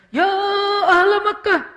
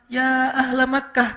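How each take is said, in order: First: The call is an exaggerated, overdramatic shout. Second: The call is loud but measured and restrained.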